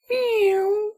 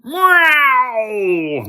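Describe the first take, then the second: First: High sweet kitten mew; kitten meow. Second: High, loud shrieking monster meow; unearthly scream. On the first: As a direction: meow like a tiny cat. Kitten meows at Brent. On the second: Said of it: "with an unearthly scream". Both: Acted.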